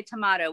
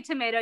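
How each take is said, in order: First: Tomato as tuh-MAH-toh; imitated British "tomato", AH in the middle; British-style tomato. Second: Tomato as tuh-MAY-doh; "tomato" the American way, with AY. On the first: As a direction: say tomato with a long open AH. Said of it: "you say tomato". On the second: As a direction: say tomato to rhyme with potato. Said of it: "we say tomato". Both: Shown as a demonstration.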